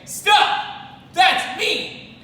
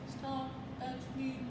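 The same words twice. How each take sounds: First: It is said loudly and forcefully. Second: It is said quietly and timidly. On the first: The speaker sounds courageous. The speaker calls it right. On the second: The speaker sounds scared. The speaker calls it wrong. "Does that sound very courageous? No"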